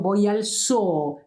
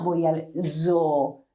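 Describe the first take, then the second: First: Zoo with a plain unvoiced s; Spanish s sound. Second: Zoo with a buzzing z; voiced English z. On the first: Teacher modelling zoo with an s sound. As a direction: zoo said soo, no buzz. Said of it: "abbreviated form". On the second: Teacher showing the wrong buzzing z. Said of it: "but not". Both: Shown as a demonstration.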